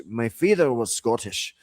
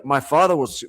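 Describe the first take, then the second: First: Broad Scottish brogue; Scottish accent. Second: Said in the usual way. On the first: Shown as a demonstration. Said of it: "broad Scottish accent".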